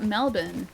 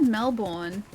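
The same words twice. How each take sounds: First: Said in the usual way. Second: "Melbourne" slowly as mel-BORN; full born pronunciation. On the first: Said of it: "So not Melbourne". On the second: Shown as a demonstration. Streamer quoting a version they've heard of "Melbourne", mel-BORN. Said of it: "I've heard Melbourne. So not Melbourne".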